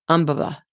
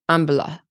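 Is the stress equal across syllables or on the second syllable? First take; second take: equal; equal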